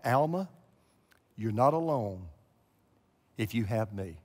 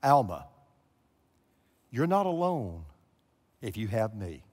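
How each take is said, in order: First: A low, soft voice calling her name; the voice of God. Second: The voice of God. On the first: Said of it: "the voice came back". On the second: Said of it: "these words". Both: Retold or imitated. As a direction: speak it gently as the voice she heard.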